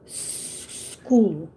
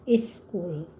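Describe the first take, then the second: First: The word starts directly with the s sound. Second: An extra vowel sound comes before the s. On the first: The speaker calls it right. "it's school. ... It's only one" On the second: The speaker calls it wrong. "It's not is school"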